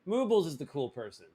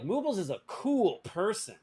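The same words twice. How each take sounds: First: Moobles emphasized, rest of sentence falls away; stress on Moobles. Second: "cool person" emphasized, higher pitched sentence; stress on cool person. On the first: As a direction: put the weight on Moobles. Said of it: "use inflection or tone to communicate". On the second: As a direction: lean hard on "cool person". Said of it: "Emphasis on the cool person". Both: Shown as a demonstration.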